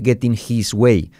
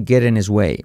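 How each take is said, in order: First: The h in 'his' is pronounced. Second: The h in 'his' is dropped. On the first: The speaker calls it wrong. "No dice getting his way" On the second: The speaker calls it right. "Salta la H"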